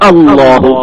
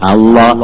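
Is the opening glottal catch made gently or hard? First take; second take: hard; gently. First: The opening glottal catch is pressed very hard. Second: The opening glottal catch is pressed with medium force. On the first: The speaker calls it wrong. "Over അമർത്തലായിട്ട് അല്ലാഹു എന്നാവരുത്" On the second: The speaker calls it right. "ഒന്ന് മീഡിയം സൈസിൽ"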